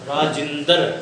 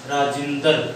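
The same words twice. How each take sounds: The two takes are said the same way.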